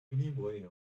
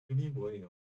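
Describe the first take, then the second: The two takes are said the same way.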